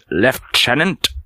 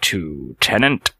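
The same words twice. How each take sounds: First: It is said with a British pronunciation. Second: It is said with an American pronunciation. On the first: "In British English, the word is pronounced lieutenant" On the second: "in the United States, you'll hear lieutenant"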